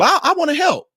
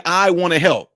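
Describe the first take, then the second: First: Higher, eager imitation of his wife; husband mimicking his wife volunteering, pitched up; wife's voice. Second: Said in the usual way. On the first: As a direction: lift it up like a keen wife offering help. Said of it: "Guess what my wife did?". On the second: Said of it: "This is her saying".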